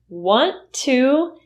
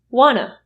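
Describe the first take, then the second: First: Both words are said fully and separately. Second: The words blend into one short word. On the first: "Want to is usually reduced to wanna" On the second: "reduced to wanna"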